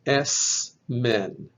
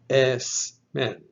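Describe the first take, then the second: First: The consonant before m is a voiceless S. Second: The same.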